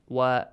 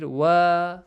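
First: The vowel is held for one short count. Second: The vowel is stretched longer than one count. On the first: The speaker calls it right. "If it is for one count" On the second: The speaker calls it wrong. "if you read wa, the meaning changes"

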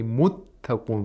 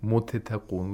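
First: The t is held and released once, forcefully. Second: The first t is released separately before the second. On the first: The speaker calls it right. "We only pronounce the second one, but with more intensity" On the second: The speaker calls it wrong. "We don't say muttaqun, We don't release the sound of the first consonant"

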